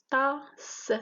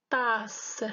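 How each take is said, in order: First: TASSE broken up as "ta - sse"; split into syllables. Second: Said in the usual way. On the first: Shown as a demonstration. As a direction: say Tasse in two beats, the final s set apart. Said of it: "c'est deux syllabes". (Tasse découpé en syllabes, « ta - sse ») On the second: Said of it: "le découpage en syllabes".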